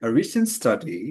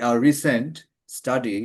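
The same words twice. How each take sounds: First: "A recent study" run together in one breath; "A recent study" as one unbroken phrase; smooth phrase. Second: "A recent" then a pause before "study"; "A recent study" split with a pause after "recent"; demonstrating the awkward way; broken phrasing. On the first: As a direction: model of the natural phrasing. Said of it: "এভাবে বলছেন, সে বলতেছে". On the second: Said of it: "উনি কখনো বলতেছেন না যে". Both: Shown as a demonstration.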